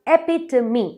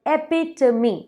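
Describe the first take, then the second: No difference in how they are said.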